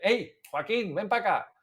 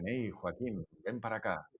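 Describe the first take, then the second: First: The phrase is called out loudly. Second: The phrase is said softly and close. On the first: Calling to someone a few meters away. "le habla más alto" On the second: The actor is enjoying hearing their own voice. "hablan muy así"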